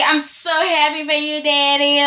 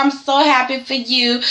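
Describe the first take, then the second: First: Mock sweet son. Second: Said in the usual way. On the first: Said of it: "Rick is like". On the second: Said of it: "Pam is just like".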